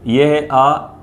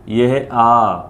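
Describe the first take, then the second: First: अ kept short; short vowel demo. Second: आ drawn out long; long vowel demo. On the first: Teacher contrasting short अ with long आ for students. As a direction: say अ brief and quick. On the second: Teacher contrasting long आ with short अ for students. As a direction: stretch the आ slowly. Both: Shown as a demonstration. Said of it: "इसको पढ़ेंगे थोड़ा खींचकर इसके मुकाबले".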